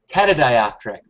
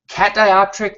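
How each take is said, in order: First: It is said with a vowel after cat. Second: It is said with no vowel after cat. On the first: The speaker calls it right. "You're missing an A. It's catadioptric" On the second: The speaker calls it wrong. "I think I've been mispronouncing that for a long time"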